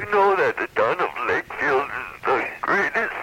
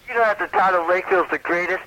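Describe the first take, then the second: First: It is said in a put-on voice. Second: It is said in his natural voice.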